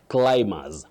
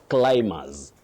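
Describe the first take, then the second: The two takes are said the same way.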